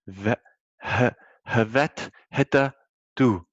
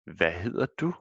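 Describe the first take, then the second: First: The opening H is sounded in a literal reading. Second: The opening H is silent in natural speech. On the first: The speaker calls it wrong. "it says" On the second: The speaker calls it right. "what we're actually saying is, ... the H is silent"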